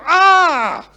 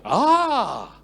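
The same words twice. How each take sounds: First: It sounds angry and frustrated. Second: It sounds surprised and amazed.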